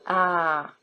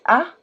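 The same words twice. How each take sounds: First: It is a smooth, long open vowel. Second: It starts with a sharp glottal catch. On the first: The letter works as a vowel. "vowel ah" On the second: The letter works as a consonant. "consonant ah"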